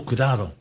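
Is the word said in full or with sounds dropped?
full. The word is said in full, standard Spanish.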